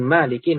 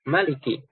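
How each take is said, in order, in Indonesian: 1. Vokal pertama panjang. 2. Vokal pertama pendek. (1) "bacanya memanjakan" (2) "Maliki pendek"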